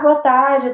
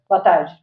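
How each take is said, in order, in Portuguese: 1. A saudação soa animada e amigável. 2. A saudação soa desanimada e desinteressada. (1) "ele está querendo conversar" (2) "ih, não quer conversa"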